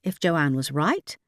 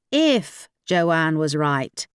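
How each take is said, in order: First: Said in the usual way. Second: If weighted and drawn out, slow, falling; doubtful stress on if. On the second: A narrator's reading. Narrator doubting Joanne's navigation, stress on If slowly. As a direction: lean hard on the word If, then let it fall slowly.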